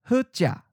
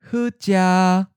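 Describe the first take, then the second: First: The tone syllable is mid pitch and cut short. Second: The tone syllable is mid pitch, level and held. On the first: "Mid stop" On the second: "Mid flat"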